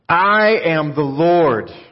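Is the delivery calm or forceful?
forceful. It is said in a forceful, emphatic way. The speaker calls it right. "I think God said it like this"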